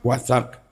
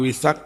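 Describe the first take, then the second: First: The first vowel is an 'a' sound. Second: The first vowel is an 'i' sound. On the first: "Kalau di ayat pakai fathah" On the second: "bikasril wawi dengan mengkasroh wawu"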